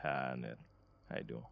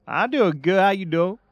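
First: Low, soft mock interviewer greeting. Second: Much higher, louder eager candidate voice; mock job candidate. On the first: Acting out the interviewer on the phone call, low and soft. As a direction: greet the candidate low and quiet. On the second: Playing Ernesto answering the interview call, high and loud. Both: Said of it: "you better talk like this".

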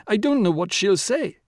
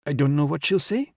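First: High-pitched, mounting panic; almost hysterical. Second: Fretful, slightly raised voice; a first anxious lament; almost hysterical. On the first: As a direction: harp on it with rising distress. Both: A narrator's reading. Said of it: "began to harp almost hysterically".

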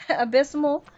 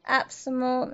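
First: "abysmal" retried as uh-BIZ-mul; laugh, then carefully try "abysmal" with the "biz" sounded; tentative corrected pronunciation. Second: "abysmal" squashed to AB-suh-mul; botched pronunciation. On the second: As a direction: say "abysmal" with stress up front, losing the "biz". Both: Real, not acted. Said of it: "I probably butchered that word".

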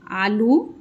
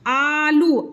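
First: Said in the usual way. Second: आलू with the opening "aa" held long; full long आ. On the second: Shown as a demonstration. Teacher showing the full आ in आलू, drawn out. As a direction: stretch both vowels of आलू. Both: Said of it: "आ पूरा आ रहा है".

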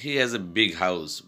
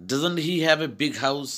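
First: Said in the usual way. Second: "Doesn't he have" high, rising at "house"; emphatic question. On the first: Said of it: "but it's a basic sentence". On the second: Shown as a demonstration. Teacher showing what sounds good, "Doesn't he" high and emphatic. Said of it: "when I am saying like this".

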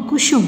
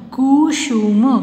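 First: Said in the usual way. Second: Kusum slow, each syllable drawn out. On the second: Shown as a demonstration. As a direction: sound out Kusum in pieces. (कुसुम को तोड़-तोड़ कर, धीरे) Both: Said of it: "sound pronounce करके देख लीजिए".

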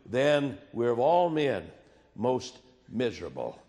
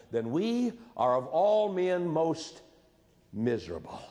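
First: Solemn repeat of the verse. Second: Grave scripture quote; slow weighty quote. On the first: Shown as a demonstration. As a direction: drag it out and let it fall. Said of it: "repeated scripture phrase". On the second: Retold or imitated. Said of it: "he would say this".

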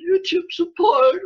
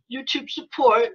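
First: High, slow, whiny mock sob; mock whimper. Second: Said in the usual way. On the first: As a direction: whimper it like a sulking child. Mocking YouTube's reply.

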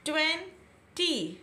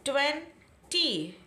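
First: ट्वेंटी broken into ट्वें and टी with a break; split into two parts. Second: ट्वेंटी said slowly, ending in long ई; slow demo word. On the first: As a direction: pause in the middle of ट्वेंटी. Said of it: "टू shots में word को read किया". (ट्वेंटी को दो हिस्सों में तोड़कर बोलें) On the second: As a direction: stretch ट्वेंटी out, end on ई. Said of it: "हमने कहाँ ब्रेक दिया?". (ट्वेंटी धीरे, अंत में लंबा ई) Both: Shown as a demonstration.

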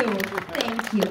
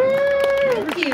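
First: Said in the usual way. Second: Much higher, louder squeal of thanks; delighted thank-you. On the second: Real, not acted. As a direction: squeal it back to the cheering crowd. Answering applause for [name].

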